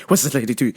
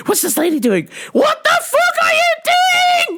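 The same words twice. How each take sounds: First: Said in the usual way. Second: Rising from mutter to a high furious yell; mom rage building to shout. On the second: Retold or imitated. Mom escalating at the braking driver, climbing into a high shout. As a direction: let it climb into a scream at the driver.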